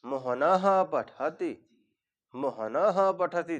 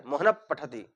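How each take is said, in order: First: मोहनः said with a full breathy "h" before पठति; मोहनः पठति with the visarga fully voiced as "मोहनह". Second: मोहन पठति run together quickly with only a doubled "प", no "h"; quick मोहन-प्पठति, visarga only half sounded. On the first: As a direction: sound out the visarga in मोहनः clearly, a bit slow. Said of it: "यदि full विसर्ग होता तब". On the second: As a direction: glide मोहन straight into पठति, no full visarga. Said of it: "तो क्या बोलेंगे". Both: Shown as a demonstration.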